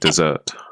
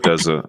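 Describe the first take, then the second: First: The stress is on the second syllable. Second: The stress is on the first syllable. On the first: It means the last part of a meal. "try and emphasize the desert" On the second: It means the sandy wasteland. "like you're wandering the sands of the desert"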